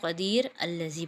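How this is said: There is a stop between the words.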